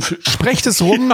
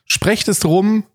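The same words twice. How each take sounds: First: Slow, high, drawn-out call; drawn-out announcement. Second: Even slower, higher proclamation; drawn-out announcement. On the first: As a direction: stretch it like a proclamation. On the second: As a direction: drag it out grandly. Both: Acted.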